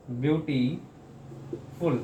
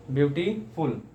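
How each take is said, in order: First: "beautiful" split with a long pause after beauty; broken into parts. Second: "beautiful" in two beats with only a short break; two quick beats. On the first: Teacher showing students a word read in several parts, widely split. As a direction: pull beautiful apart, very slowly, beauty ... फुल. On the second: Teacher repeating the split word for students, parts closer together. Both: Shown as a demonstration. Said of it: "कई बार में पढ़ सकें".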